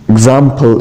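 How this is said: It is said with a British accent. "in British accent"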